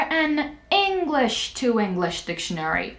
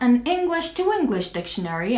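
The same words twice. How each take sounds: First: The word 'an' is said strongly, with stress. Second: The word 'an' is said weakly, without stress. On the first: The speaker is annoyed at getting the wrong thing. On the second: A plain, neutral request.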